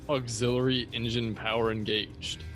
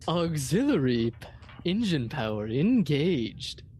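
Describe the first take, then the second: First: It is said in a plain, ordinary voice. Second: It is said in a put-on sexy voice.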